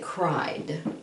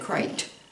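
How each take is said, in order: First: The word ends with a D sound. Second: The word ends with a T sound. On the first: The speaker calls it right. "all vowel sounds at the end of a word have a D sound" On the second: The speaker calls it wrong. "you wouldn't say crite"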